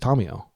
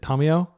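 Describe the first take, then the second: First: It is said with a Japanese pronunciation. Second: It is said with an American pronunciation. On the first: The speaker calls it right. "like a Japanese person would" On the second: The speaker calls it wrong. "Americans generally pronounce it"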